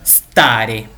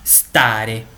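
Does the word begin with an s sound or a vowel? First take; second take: s sound; s sound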